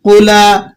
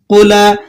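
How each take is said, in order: The two takes are said the same way.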